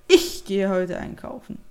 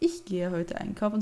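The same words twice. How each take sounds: First: The first word carries strong stress. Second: The first word is unstressed and reduced. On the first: "wenn man Betonung auf das Ich hat" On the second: "nicht ich gehe heute einkaufen"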